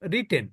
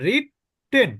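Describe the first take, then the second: First: The middle t sound is short and single. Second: The middle t sound is held and doubled. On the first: The speaker calls it right. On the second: The speaker calls it wrong.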